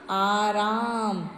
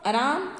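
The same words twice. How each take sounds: First: आराम drawn out very slowly, "aaa-raaam"; long first vowel. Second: आराम with a clipped first vowel, "araam"; wrong short first vowel. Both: Shown as a demonstration. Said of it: "ये राम लिखा है".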